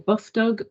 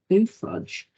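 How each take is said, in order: First: It is said as two words, buff dog. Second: It is said as two words, boo fudge. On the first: "or Buff Dog" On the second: "some people even call it Boo Fudge"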